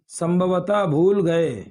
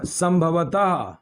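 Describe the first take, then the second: First: Slow "संभवतः भूल गए" with weight on भूल; stress on भूल. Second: "संभवतः" drawn out slowly, falling at the end; slow teaching model. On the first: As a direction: lean on "भूल" slowly, falling at the end. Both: Shown as a demonstration. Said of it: "teacher modelling an uncertainty word".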